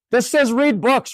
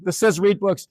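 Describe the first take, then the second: First: "says" lifted high and drawn out slowly; incredulous, slow emphasis on "says"; stressing says. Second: Said in the usual way. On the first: Shown as a demonstration. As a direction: spell it out in disbelief, "This says read books".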